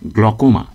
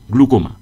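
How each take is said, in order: First: The first vowel sounds like 'o'. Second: The first vowel sounds like 'oo'. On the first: The speaker calls it right. "সঠিক উচ্চারণ" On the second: The speaker calls it wrong. "এটা ভুল উচ্চারণ"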